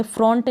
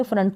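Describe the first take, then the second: First: फ्रंट with a round o, "frohnt"; wrong pronunciation. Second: फ्रंट with a short "uh", "frunt"; correct pronunciation. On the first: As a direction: misread फ्रंट with the written o. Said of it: "फ्रंट नहीं पढ़ेंगे". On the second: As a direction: say फ्रंट to rhyme with hunt. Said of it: "फ्रंट को ऐसे ही पढ़ेंगे". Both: Shown as a demonstration.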